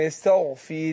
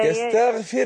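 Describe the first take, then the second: First: The syllable yastagh sounds light and unemphatic. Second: The syllable yastagh sounds heavy and emphatic. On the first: The speaker calls it right. "أقول يستغ اللي غير مفخمة" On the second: The speaker calls it wrong. "لا يا حاج"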